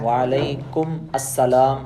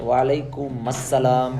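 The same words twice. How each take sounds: Both takes have the same delivery.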